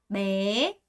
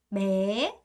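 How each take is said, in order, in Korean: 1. 이 모음은 길고 음이 올라가요. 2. 이 모음은 길고 음이 올라가요.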